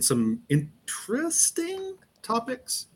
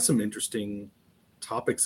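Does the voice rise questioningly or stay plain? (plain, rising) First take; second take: rising; plain. First: The voice goes up in a questioning tone. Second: The phrase is said in a plain statement tone.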